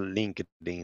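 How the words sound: It is said with an English accent.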